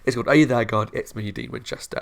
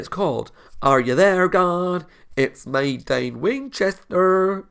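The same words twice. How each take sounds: First: It is said in his normal own accent. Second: It is said in a southern-Swedish put-on accent.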